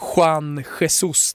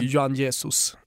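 First: The name is pronounced the Spanish way. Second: The name is pronounced the Portuguese way. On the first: The speaker calls it wrong. "i Portugal så kör man inga Juan Jesus" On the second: The speaker calls it right. "utan det är Juan Jesus"

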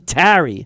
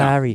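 First: The word is said plainly, not delicately. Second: The word is said delicately and softly.

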